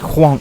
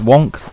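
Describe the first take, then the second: First: It starts with a strong breathy H sound. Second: It starts with a plain W sound. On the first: "she would always say whonk. Emphasis on the H" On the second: "It says wonk"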